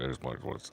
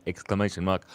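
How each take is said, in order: First: "exclamation mark" whispered away to nothing; "exclamation mark" faded to a whisper; fading whisper. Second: Said in the usual way. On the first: Shown as a demonstration. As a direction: let "exclamation mark" die out in a breathy whisper. Repeated words fade to whisper.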